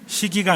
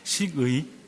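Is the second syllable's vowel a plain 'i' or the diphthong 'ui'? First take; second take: i; ui. First: The second syllable has a plain 'i' vowel. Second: The second syllable has an 'ui' glide vowel. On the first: The speaker calls it wrong. "식이가 아니라" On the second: The speaker calls it right.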